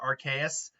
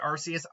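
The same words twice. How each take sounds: First: The second syllable starts with a K sound. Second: The second syllable starts with an S sound. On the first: It echoes the name of the creature's ability. "I've always pronounced it Arceus because his ability is known as the R K S system" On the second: This is how many other people say the name. "a lot of people still pronounce it Arceus"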